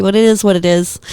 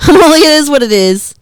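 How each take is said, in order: First: Said in the usual way. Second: Loud laugh breaking into the words; laughing hard while repeating it. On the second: Real, not acted. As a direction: laugh your way through the line.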